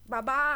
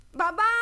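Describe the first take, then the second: First: Said in the usual way. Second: Louder rising call for dad; boy calling his busy father, louder. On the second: Acted. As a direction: raise the voice so dad finally looks up. Boy calls father again louder.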